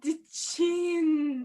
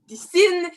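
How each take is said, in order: First: The word starts with a 'ch' sound. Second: The word starts with an 's' sound. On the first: The word is pronounced properly. The speaker calls it wrong. "No, no, you have to say sin" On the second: The character cannot pronounce the word properly. The speaker calls it right. "She can't pronounce the words properly"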